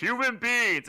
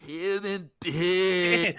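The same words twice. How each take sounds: First: Loud, grand proclamation; booming voice of God. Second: Slow, drawn-out, deadpan; casual Jason voice as God. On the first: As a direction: thunder it out like God. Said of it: "instead of being like". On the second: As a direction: say it lazily like an ordinary guy. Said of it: "it says, like". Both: Retold or imitated.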